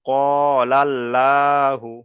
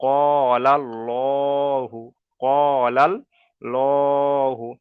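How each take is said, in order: First: Slow ক লাল্লাহু with a light, open "laa"; unrounded "laa" in লাল্লাহু, held long; wrongly thin pronunciation. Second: Slow ক লাল্লাহু with a heavy, rounded "lo"; full "pur" pronunciation. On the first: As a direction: draw out লাল্লাহু as "lal-LAA-hu". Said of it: "তাহলে এখানে বারিক হয়ে যাবে". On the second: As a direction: draw out লাল্লাহু as "lal-LOO-hu". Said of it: "পুর করে পড়তে হবে". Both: Shown as a demonstration.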